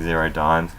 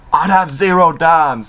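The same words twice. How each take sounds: First: Said in the usual way. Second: Higher, louder punchline; cocky mock punchline; imitating Enzo. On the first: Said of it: "something on the back saying". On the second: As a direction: land the put-down with swagger. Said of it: "pretty much Enzo says".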